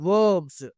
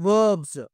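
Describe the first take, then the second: No difference in how they are said.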